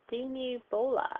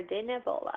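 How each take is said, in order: First: "Dinibola" with long ee vowels, DEE-nee-BO-la; trying a pronunciation. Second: "Dinibola" with short vowels, DIN-uh-BO-la; alternative pronunciation. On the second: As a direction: try "Dinibola" as DIN-uh-BO-la, unsure. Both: Shown as a demonstration. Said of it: "see how you pronounce this".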